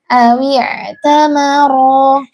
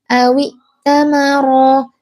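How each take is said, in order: First: The consonant after aw is a throaty ain sound. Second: The consonant after aw is a plain glottal stop. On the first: The speaker calls it right. "tetapi awi tamara" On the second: The speaker calls it wrong. "jangan dibaca hamzah"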